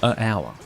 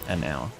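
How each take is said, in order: First: No n sound comes before hour. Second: An n sound links the article to hour. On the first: The speaker calls it wrong. "it's not right" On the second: The speaker calls it right. "So an hour is the way you say it"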